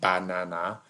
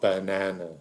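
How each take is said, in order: First: Every vowel is a full, equal ah sound. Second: The first and last vowels are reduced schwas. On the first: It sounds funny, like a cartoon character. The speaker calls it wrong. "You don't pronounce all those A's the same. That's how the minions talk" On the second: It sounds like normal human speech. The speaker calls it right. "b, schwa, n a n, schwa, banana"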